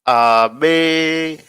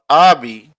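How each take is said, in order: First: The stress is on the second syllable. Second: The stress is on the first syllable. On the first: It is the boy's name meaning one with much refrain. "The name has its emphasis on the second syllable" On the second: It is the Arabic word meaning my father. "my father, has the emphasis on the first syllable"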